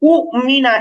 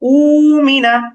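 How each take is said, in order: First: The first vowel is clipped with a hard catch. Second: The first vowel is drawn out smoothly. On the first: The speaker calls it wrong. "এরকম কঠিন উচ্চারণ না করে" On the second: The speaker calls it right. "একটু টেনে উচ্চারণ করি"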